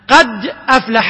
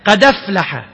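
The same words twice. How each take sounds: First: The glottal stop after qad is clearly pronounced. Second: The glottal stop is dropped; its vowel joins the d.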